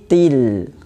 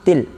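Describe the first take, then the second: First: The final L is held so the sound flows. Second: The final L stops abruptly, cutting off the sound. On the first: The speaker calls it right. "tapi harus dialirkan" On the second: The speaker calls it wrong. "Itu berhenti, namanya ter, tertahannya suara"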